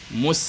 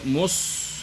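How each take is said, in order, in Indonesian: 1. Bunyi s itu tipis dan ringan. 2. Bunyi s itu tebal dan berat. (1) "Posisinya harus tipis" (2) "Tidak boleh dibaca tebal. Tidak boleh mus"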